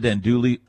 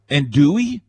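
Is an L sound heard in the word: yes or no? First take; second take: yes; no. First: The word is said with an L sound. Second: The word is said without an L sound. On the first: "I've always called it Andouille" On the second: "You don't pronounce the L?"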